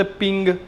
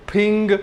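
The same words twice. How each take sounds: First: पिंग with an ordinary English p; English reading. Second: फिंग with a puff of air on the p; Chinese pronunciation. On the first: Teacher showing the English reading, plain English p in पिंग. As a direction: say पिंग as English reads "ping". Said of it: "English होता तो कैसे बोलते". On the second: Teacher modelling Chinese for students, aspirated p in फिंग. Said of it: "लेकिन Chinese में कैसे बोलेंगे". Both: Shown as a demonstration.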